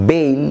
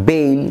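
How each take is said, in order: No difference in how they are said.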